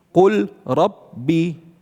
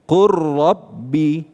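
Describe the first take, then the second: First: The l is pronounced clearly before the r. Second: The l merges into a doubled r sound. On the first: The speaker calls it wrong. "Betul bacanya seperti itu? Tidak" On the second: The speaker calls it right. "lamnya dimasukkan ke ra"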